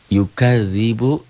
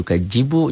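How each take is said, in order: First: The middle consonant is a soft dh sound. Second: The middle consonant is a j sound. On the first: The speaker calls it right. "Ini zal gitu" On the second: The speaker calls it wrong. "jangan yukajibu"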